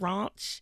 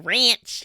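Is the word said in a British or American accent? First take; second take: British; American. First: It is said in a British accent. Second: It is said in an American accent.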